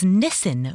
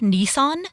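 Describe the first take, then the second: First: It is said with an Australian pronunciation. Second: It is said with an American pronunciation. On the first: "was Nissan over there" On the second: "The car"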